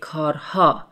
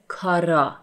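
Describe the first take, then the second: First: The h sound in the middle is pronounced. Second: The h sound in the middle is dropped. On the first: "I didn't say کارها" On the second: "When I speak fast, I said کارا. I omit the he sound"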